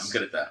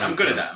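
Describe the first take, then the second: First: Low, soft and calm. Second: Said in the usual way. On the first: Shown as a demonstration. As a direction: drop to a low hush. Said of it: "really some low tone".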